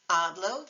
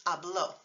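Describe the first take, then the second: First: Hablo stressed on the first syllable. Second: Habló stressed on the last syllable; final-syllable stress. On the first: Teacher repeating the contrast, first-syllable stress. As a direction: lean on HA in Hablo. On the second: Teacher repeating the contrast, final-syllable stress. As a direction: land firmly on LÓ in habló. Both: Shown as a demonstration. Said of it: "accent mark makes a crucial difference".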